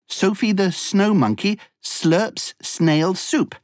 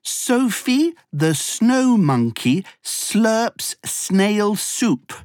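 First: The sentence is spoken at a fast pace. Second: The sentence is spoken at a moderate pace.

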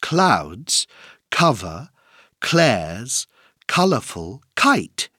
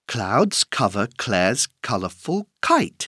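First: The sentence is spoken at a moderate pace. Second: The sentence is spoken at a fast pace.

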